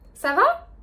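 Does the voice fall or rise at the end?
rise. The pitch rises at the end, like a question. It asks how someone is. "quand quelqu'un vous dit ça va"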